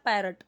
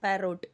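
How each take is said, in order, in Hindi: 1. दूसरा स्वर एक छोटा 'uh' ध्वनि है। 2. दूसरा स्वर एक पूरा 'o' ध्वनि है।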